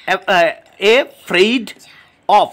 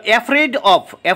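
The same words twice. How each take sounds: First: Afraid of broken as a, fraid, of; syllable by syllable. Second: Said in the usual way. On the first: Shown as a demonstration. Teacher counting three syllables, each said separately. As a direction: pause between each part of afraid of. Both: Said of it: "তিনটে এখানে syllable রয়েছে".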